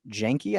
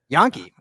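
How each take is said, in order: First: The name starts with a J sound. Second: The name starts with a Y sound. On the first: The speaker calls it wrong. "I don't know if I said that right" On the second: The speaker calls it right. "Okay, I was way off"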